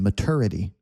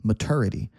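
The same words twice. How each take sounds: Both takes have the same delivery.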